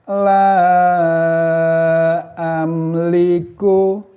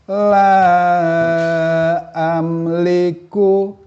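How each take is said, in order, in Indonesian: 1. Vokal itu dibaca panjang, lima harakat. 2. Vokal itu dibaca panjang, lima harakat.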